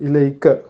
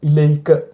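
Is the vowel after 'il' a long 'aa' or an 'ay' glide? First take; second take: ay; ay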